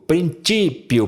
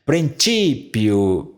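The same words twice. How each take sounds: First: Said in the usual way. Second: "Princípio" drawn out slowly, syllable by syllable; slow demonstration. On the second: Shown as a demonstration. Teacher modelling "Princípio" for students, slow and syllabified. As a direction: spell out "Princípio" slowly for the ear. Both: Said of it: "Por que é princípio?".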